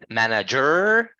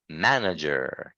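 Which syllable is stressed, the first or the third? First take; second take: third; first. First: The stress is on the third syllable. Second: The stress is on the first syllable. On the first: The speaker calls it wrong. "Is that how we say that word?" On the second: The speaker calls it right. "our voice needs to be like uh, higher on the first sound"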